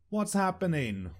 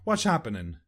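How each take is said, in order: First: Every sound is pronounced clearly and separately. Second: The sounds run together in a slurred way.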